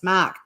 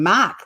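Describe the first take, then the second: First: Boston Mark. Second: Australian Mark. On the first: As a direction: Mark with the Boston ark sound. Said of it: "Bostonians do that kind of arc noise". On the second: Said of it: "like an Australian does". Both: Retold or imitated.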